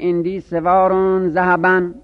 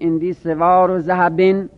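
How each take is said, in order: First: The last word ends with the vowel -an. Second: The last word ends with the vowel -in. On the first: The last word is a specifier. "به نصب بخونید" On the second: The last word is annexed to the noun before it. "به جر بخونید"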